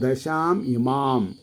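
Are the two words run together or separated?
separated. The two words are read separately. This is how it should be read. "പക്ഷെ നമ്മൾ എങ്ങനെ വായിക്കണം?"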